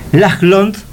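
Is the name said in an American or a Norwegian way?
Norwegian. The name is said in a Norwegian way. The speaker calls it right. "así se pronuncia"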